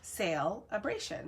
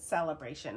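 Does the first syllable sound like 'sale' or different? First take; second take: sale; different. First: The first syllable sounds like 'sale'. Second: The first syllable does not sound like 'sale'. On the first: The speaker calls it right. "I'm seeing sale, S A L E" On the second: The speaker calls it wrong. "I have heard other people pronounce it celebration, which it just doesn't feel right to me"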